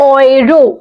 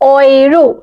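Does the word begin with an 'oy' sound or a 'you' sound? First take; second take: oy; oy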